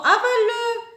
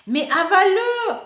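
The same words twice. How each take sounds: First: Even higher and louder repeat; louder order. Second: Loud, high command; ordering. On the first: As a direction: push the command harder. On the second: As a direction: snap the order at the child. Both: Acted. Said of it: "ordonne maman".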